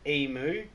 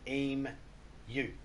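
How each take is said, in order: First: The word ends with a 'moo' sound. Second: The word ends with a 'you' sound. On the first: The speaker calls it wrong. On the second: The speaker calls it right.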